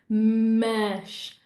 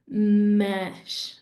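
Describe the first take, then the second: The two takes are said the same way.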